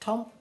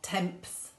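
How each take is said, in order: First: No final s sound is pronounced. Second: A final s sound is pronounced. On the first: The speaker calls it right. "it's just temps because the S is silent" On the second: The speaker calls it wrong. "we don't say temps"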